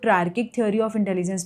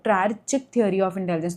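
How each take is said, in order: First: The consonant after 'triar' is a k sound. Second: The consonant after 'triar' is a ch sound. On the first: This is the usual pronunciation of the term. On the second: This follows the spelling to help remember it.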